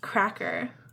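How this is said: It is said with English sounds, ending in er. The speaker calls it wrong. "and not an English way"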